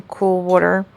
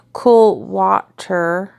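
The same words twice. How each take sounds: First: Jersey "water", said "wawter"; Jersey accent. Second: "water" slowly re-said as "wahter"; very slow, careful "water" with an open "ah"; corrected pronunciation. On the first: Real, not acted. Cook telling viewers how she rinsed the meat, Jersey accent. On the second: Shown as a demonstration. Cook correcting her Jersey accent for viewers, "water" as careful "wahter". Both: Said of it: "sorry, that was the Jersey accent".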